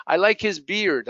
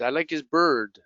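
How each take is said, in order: First: "beard" with an ee glide into R; minimal-pair demo, ee in "beard"; beard vowel. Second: "bird" with a central er vowel; minimal-pair demo, no ee in "bird". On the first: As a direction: say "beard" clearly as bee-rd. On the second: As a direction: say "bird" as one R-coloured er. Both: Shown as a demonstration. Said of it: "difficult to hear".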